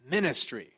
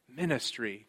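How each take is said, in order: First: The word is said with energetic gusto. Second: The word is said in a reflective tone. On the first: It carries one meaning. "if you sort of say it with a bit of gusto" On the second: It carries another meaning. "with a more reflective ministry kind of tone"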